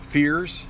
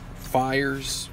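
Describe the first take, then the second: First: The name rhymes with the word fears. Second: The name rhymes with the word fires. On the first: "I'm not sure which pronunciation he uses" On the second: "We'll go with Fires"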